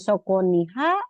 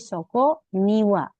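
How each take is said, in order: First: The particle is pronounced with an h sound. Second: The particle is pronounced with a w sound. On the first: The speaker calls it wrong. "jadi bukan soko niha" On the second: The speaker calls it right. "tapi soko niwa"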